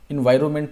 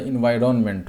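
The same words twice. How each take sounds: First: The n before the m is dropped. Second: The n before the m is clearly sounded. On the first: The speaker calls it wrong. "इन्वायरमेंट नहीं होता" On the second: The speaker calls it right. "आप ऐसे बोलेंगे तो आपको spelling भी याद रहेगा"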